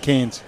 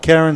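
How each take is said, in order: First: The name is said as one syllable, like Cairns. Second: The name is said with two syllables, like Karen. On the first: "some Cairns" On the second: "Some pronounce it Karen"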